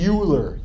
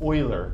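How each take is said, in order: First: The name is said in an anglicized way. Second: The name is said in the German way. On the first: The speaker calls it wrong. "Don't say Euler. You sound foolish if you say Euler" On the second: The speaker calls it right. "This person's name is Euler. He's German"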